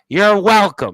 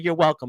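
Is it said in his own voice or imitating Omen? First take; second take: imitating Omen; own voice. First: It is said imitating Omen's voice and tone. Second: It is said in his own normal voice.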